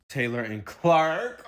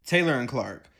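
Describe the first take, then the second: First: Slow, dreamy drawn-out names; mock dreamy. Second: Said in the usual way. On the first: Shown as a demonstration. Mocking the couple's sweet talk, slow and dreamy. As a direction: say the names like a lovesick sigh. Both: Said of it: "Their conversations go like this".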